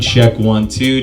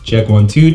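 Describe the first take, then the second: First: The voice has no bass, mostly highs and mids. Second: The voice has strong bass and body. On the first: "You're not hearing any of that low end or bass" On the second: "You're hearing a lot more bass or body in my voice there"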